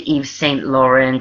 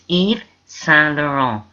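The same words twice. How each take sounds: First: The T sounds in the name are pronounced. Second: The T sounds in the name are silent. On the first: The speaker calls it wrong. "You don't say Yves Saint Laurent" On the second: The speaker calls it right. "It's Yves Saint Laurent. You don't pronounce the T's"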